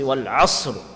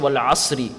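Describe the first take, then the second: First: The word ends on a bare, heavy r sound. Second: The word ends with an added i vowel. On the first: The speaker calls it right. "When you're stopping, you say Wal Asr. That ra will be read full mouth" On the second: The speaker calls it wrong. "you don't say Wal Asri"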